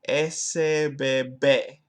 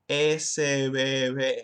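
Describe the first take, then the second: First: The B between vowels is a hard stop. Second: The B between vowels is a soft fricative. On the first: The speaker calls it wrong. "I didn't turn things fricative" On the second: The speaker calls it right. "So it should be"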